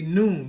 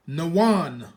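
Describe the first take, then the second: First: It is said as one syllable. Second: It is said as two syllables. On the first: This is how the other group says it. "They say noon" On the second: This is how our own group says it. "We're gonna say nawan"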